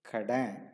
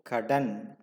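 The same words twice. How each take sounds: First: The final n is a faint nasal. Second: The final n is fully pronounced. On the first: This is the everyday spoken form. "when you speak or in a day-to-day conversation" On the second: This is the formal form. "Loan is kadan"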